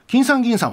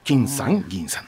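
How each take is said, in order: First: 金さん銀さん joined as one compound word; つなげた誤用例. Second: 金さん, 銀さん with separate accents; accent 金さん and 銀さん as two names; 分けた正用例. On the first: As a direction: run 金さん銀さん together under a single accent. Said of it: "はないんですよ". (「金さん銀さん」を一語として続けて) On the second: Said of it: "分けて言ってました". (「金さん」と「銀さん」を分けて) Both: Shown as a demonstration.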